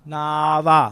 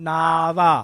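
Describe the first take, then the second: Both takes have the same delivery.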